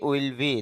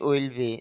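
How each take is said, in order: No difference in how they are said.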